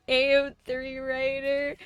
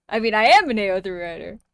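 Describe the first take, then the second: First: Mock proud. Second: "am" pushed up, louder and fast, insisting; stress on am. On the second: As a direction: hit "am" hard, rushing the rest. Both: Shown as a demonstration.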